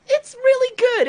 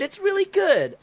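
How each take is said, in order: First: Squeaky high excited really good; excited high praise. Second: Said in the usual way. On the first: Real, not acted. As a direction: gush it up high.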